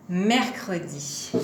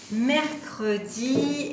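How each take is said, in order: First: Said in the usual way. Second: "Mercredi" stretched slowly, higher; slow, higher-pitched "Mercredi", last syllable held; drawn out. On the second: Shown as a demonstration. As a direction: lengthen each syllable of "Mercredi". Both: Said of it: "quand on accroche tout ensemble".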